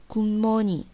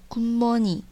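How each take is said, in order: No difference in how they are said.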